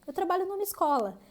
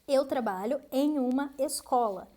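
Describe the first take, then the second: First: The preposition and article merge into one word. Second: The preposition and article are said separately.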